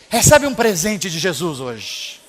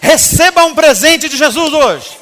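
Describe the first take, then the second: First: It is said in a dejected, listless tone. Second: It is said in an enthusiastic, lively tone.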